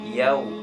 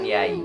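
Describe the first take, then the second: First: The vowel glides into a w sound. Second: The vowel glides toward an i sound. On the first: The speaker calls it right. "itu ke waw" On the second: The speaker calls it wrong. "Ada yang mengucapkan yai"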